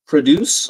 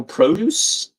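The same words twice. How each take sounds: First: "Produce" as pruh-DOOS, stress on the second syllable; verb pronunciation. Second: "produce" as PROH-doos, with a full long o; noun pronunciation. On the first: Streamer weighs two readings of a clue, "Produce" as pruh-DOOS. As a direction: say "Produce" with a reduced first vowel, pruh-DOOS. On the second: Streamer weighs two readings of a clue, "produce" as PROH-doos. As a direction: say "produce" with a clear PROH at the front, questioning. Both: Shown as a demonstration. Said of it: "Produce or produce?".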